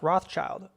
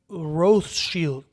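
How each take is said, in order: First: The name is said the familiar, widely known way. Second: The name is said the family's own way. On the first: This is how most people know the name. The speaker calls it wrong. "It's not pronounced Rothschild" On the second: This is how the family itself says the name. The speaker calls it right. "It's pronounced Rothschild"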